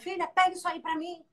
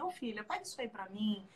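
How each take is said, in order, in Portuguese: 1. É dito com tom duro e severo. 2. É dito com tom suave e carinhoso. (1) "Eu posso falar assim dura" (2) "ela ir lá com aquele carinho"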